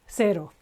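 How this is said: The word begins with an 's' sound. This is the Latin American pronunciation. "in Latin America it will be just a simple S"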